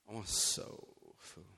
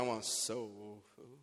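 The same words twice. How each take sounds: First: It is said in an eager, excited tone. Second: It is said in a plain, calm tone.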